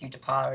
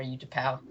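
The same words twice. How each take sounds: First: Utapau said "YOO-tuh-pah"; first pronunciation option. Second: Utapau said "YOO-tuh-pow"; second pronunciation option. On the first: Co-host weighs two versions, Utapau as "YOO-tuh-pah". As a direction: end Utapau on an open "pah". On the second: Co-host weighs two versions, Utapau as "YOO-tuh-pow". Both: Shown as a demonstration. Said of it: "if it's Utapau or Utapau".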